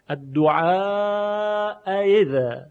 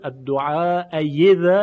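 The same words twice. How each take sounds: First: The second glottal stop is softened toward y. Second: The second glottal stop becomes a clear y. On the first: The speaker calls it right. "در اینجا تسهیل هست" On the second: The speaker calls it wrong. "این ابدال به یائه"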